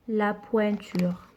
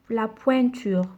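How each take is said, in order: First: Slow clear model word. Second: Said in the usual way. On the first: Shown as a demonstration. Teacher to young pupils, modelling the word slowly and clearly. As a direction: say "La pointure" slowly and softly, each sound clear.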